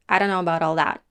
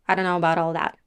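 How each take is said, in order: No difference in how they are said.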